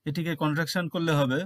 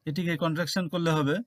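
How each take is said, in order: No difference in how they are said.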